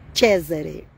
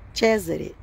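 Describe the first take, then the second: First: The name is said with an Italian pronunciation. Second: The same.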